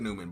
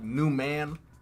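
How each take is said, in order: First: The middle N is blended smoothly into one word. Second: The middle N is hard, like two separate words. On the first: "I think I said Newman" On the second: "like a hard N"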